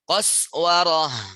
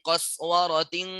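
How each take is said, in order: First: The word ends in an h sound, then stops. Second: The word ends in a t sound, linked on. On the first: The reading stops on this word. "Sama dengan di atas" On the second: The reading continues without stopping. "dia nggak wakof, wasol terus, ya tetap dibaca menjadi tak"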